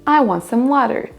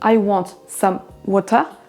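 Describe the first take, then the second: First: One syllable of water is strong, one reduced. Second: Both syllables of water have equal strength. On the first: The speaker calls it right. "Accentuez bien celle qui doit l'être et diminuez l'autre" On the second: The speaker calls it wrong. "ne dites pas"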